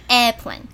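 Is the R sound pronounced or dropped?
dropped. It is said the British way without R.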